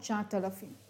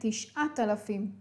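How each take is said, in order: First: The first word begins with 'tsha', as tsha-at. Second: The first word begins with 'tish', as tish-at. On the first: The speaker calls it wrong. "ולא תשעת אלפים" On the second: The speaker calls it right. "וכן תשעת אלפים"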